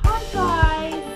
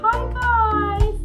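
First: It is said in a high-pitched voice. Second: It is said in a normal voice.

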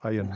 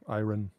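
First: The R sound is nearly silent. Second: The R sound is clearly pronounced. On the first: The speaker calls it right. "das R ist mehr oder weniger stumm" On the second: The speaker calls it wrong. "oder Iron"

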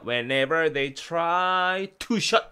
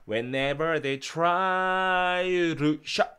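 First: The t in 'to' is a clear, separate t. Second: The t in 'to' is softened and linked. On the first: The speaker calls it wrong. "이렇게 안 하고요" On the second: The speaker calls it right. "이렇게 루 들렸어요"

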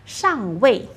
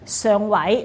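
First: The word is pronounced in Mandarin. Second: The word is pronounced in Cantonese.

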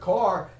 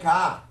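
First: It is said in the speaker's usual accent. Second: It is said in a Massachusetts accent. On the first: "like when we say the word car" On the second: "they say car"

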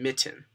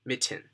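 First: The middle T is said as a clear T sound. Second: The middle T is said as a clear T sound.

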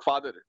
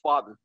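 First: The r sound is clearly pronounced in the word. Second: The r sound is dropped from the word. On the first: The speaker calls it wrong. "It's not फादर" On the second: The speaker calls it right. "अ फादर में आर हटा दो तो क्या होगा"

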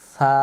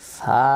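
First: The first sound is a soft tongue-tip th. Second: The first sound is a sharp, plain s. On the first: The speaker calls it right. "নরম করে সা" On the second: The speaker calls it wrong. "এরকম শব্দ আসবে না"

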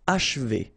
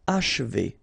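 First: The middle vowel is barely heard. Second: The same.

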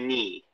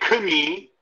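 First: No K sound is heard before the N. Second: A K sound is heard before the N. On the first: The speaker calls it right. "The K is silent. you just say knee" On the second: The speaker calls it wrong. "So you don't say knee"

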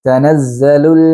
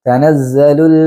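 The two takes are said the same way.

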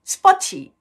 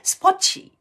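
First: The t is released strongly, almost like ch. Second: The same.

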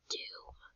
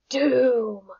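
First: The word is said quietly. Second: The word is said loudly.

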